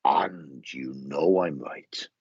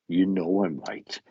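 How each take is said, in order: First: Slow, drawn-out and knowing; lightly voiced lady, slow and knowing; her knowing tone. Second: Said in the usual way. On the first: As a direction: say it slowly, sure you're right. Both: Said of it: "She'd go".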